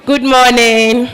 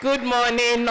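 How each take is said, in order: First: Slow, loud call-and-response greeting. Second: Said in the usual way. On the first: Shown as a demonstration. Host leads the room in a loud, slow good morning. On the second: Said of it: "round of applause".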